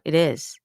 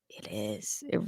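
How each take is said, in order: First: Said in the usual way. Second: A breathy whispered echo; whispered aside. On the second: Real, not acted. Podcaster whispers her own agreement, whispered aside. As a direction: drop to a whisper to herself.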